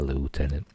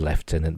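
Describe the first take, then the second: First: The word has an American pronunciation. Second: The word has a British pronunciation. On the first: This is how it is said in the show. "but in Star Trek they say lieutenant" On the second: This is how British people say it. "I know we're British, we say lieutenant"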